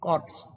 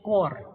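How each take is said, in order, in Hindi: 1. अंतिम 'ps' ध्वनि बोली जाती है। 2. अंतिम 'ps' ध्वनि चुप रहती है। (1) "નહીં કે કોર્પ્સ" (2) "આનો ઉચ્ચાર થાય છે કોર"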